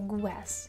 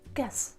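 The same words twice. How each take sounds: First: A 'w' sound follows the 'g'. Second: A plain 'g' with no 'w' sound. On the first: The speaker calls it wrong. "pronounce g and w together like guess" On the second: The speaker calls it right. "you should just say g"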